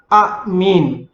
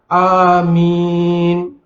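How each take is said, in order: First: A glottal catch splits the opening vowel sound. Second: The opening vowel is held long, two beats. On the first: This is the original underlying form. "asalnya amin itu adalah amin. Apabila maksudnya amin tu hamzah hidup dengan hamzah mati" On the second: This is the form actually recited. "baca dua harakat. Jadi bacaannya adalah amin"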